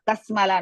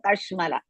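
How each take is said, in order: First: The second consonant is a plain 's' sound. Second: The second consonant is a 'sh' sound. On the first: The speaker calls it wrong. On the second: The speaker calls it right. "Sha is Shankara sha"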